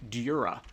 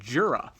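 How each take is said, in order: First: The name begins with a Y-like sound. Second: The name begins with a J sound. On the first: This follows how the name is written in Japanese. "if you look at the Japanese, the way that it's written phonetically, it should be Dura" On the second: This follows the English spelling of the name. "see the D J at the start of his name and pronounce it Jura"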